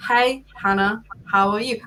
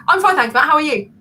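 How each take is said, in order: First: Plodding, spaced-out greeting; slow talker imitation. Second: Higher, louder, rushed answer; impatient quick reply. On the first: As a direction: greet them one slow word at a time. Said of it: "Just imagine that conversation". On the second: Retold or imitated. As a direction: fire the reply back in one burst. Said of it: "I wanna talk like this".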